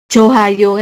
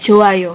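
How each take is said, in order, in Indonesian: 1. Bunyi h terdengar sebelum vokal kedua. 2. Tidak ada bunyi h yang terdengar di antara kedua vokal. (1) "bukan juga dibaca Johayo kayak gitu" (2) "tapi Joayo kayak gitu. Jadi hilang"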